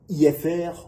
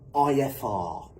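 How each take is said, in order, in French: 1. Les lettres se prononcent à la française. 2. Les lettres se prononcent à l'anglaise. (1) "en français"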